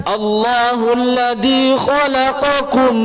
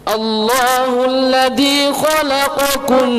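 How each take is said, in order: The two takes are said the same way.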